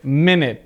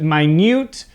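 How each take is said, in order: First: Minute as MIN-it, both vowels short; noun pronunciation. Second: Minute as my-NYOOT, long i and long u; adjective pronunciation. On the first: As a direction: say minute like "minnit". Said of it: "as a verb, we pronounce it". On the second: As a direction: say minute like "my newt". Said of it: "as an adjective, we pronounce it". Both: Shown as a demonstration.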